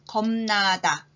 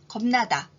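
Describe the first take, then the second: First: The word is said at a slow pace. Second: The word is said at a fast pace. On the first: "천천히 읽을 테니까 따라서 말해보세요" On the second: "이번엔 빨리 해볼까요?"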